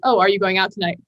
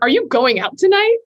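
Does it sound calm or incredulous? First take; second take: calm; incredulous. First: It sounds calm and matter-of-fact. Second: It sounds shocked and incredulous.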